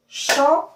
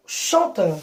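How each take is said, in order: First: "Chanteur" split chan, teur with a long pause; high, loud "chan", then "teur" alone in "Chanteur"; syllable by syllable. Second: Said in the usual way. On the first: Shown as a demonstration. Teacher asking pupils to listen, syllable by syllable. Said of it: "regardez bien, écoutez". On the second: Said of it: "Après, nous avons".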